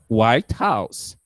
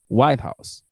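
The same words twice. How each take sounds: First: Both words carry equal stress. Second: Only the first word is stressed. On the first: "double stress" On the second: The name of one particular building.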